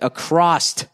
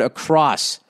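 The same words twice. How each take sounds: First: The word ends with an extra t sound. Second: The word ends cleanly on the s sound. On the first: The speaker calls it wrong. "He said across, A-C-R-O-S-S-E-D" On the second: The speaker calls it right. "the correct word across"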